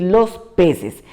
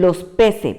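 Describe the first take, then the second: First: Said in the usual way. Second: "peces" said as "pese", final S left off; "peces" pronounced "pese", omitting the S; dropping the final S. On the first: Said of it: "por decir". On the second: Shown as a demonstration. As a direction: say "los peces" with no S at the end of "peces". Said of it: "van a pronunciar y dicen".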